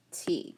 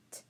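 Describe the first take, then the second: First: Said in the usual way. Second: "t" as a bare voiceless tap, no vowel; isolated t sound. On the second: Shown as a demonstration. Teacher sounds out the last letter, isolated t sound. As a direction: tick out "t" with breath only. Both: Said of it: "And then the t".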